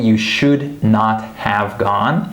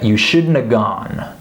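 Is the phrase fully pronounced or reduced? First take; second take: fully pronounced; reduced. First: Every word is fully and separately pronounced. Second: Have is reduced to a short uh sound. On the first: "I'm saying you should not have gone" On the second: "I would uh, shorten it to shouldna"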